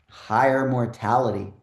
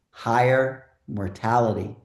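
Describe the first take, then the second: First: It is said at normal speed. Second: It is said slowly and deliberately.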